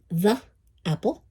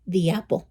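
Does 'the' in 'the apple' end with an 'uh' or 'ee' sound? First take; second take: uh; ee. First: It is said the harder way, as before consonants. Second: It is said the easier way, as before vowels. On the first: The speaker calls it wrong. "es más difícil decir the apple" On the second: The speaker calls it right. "que decir the apple"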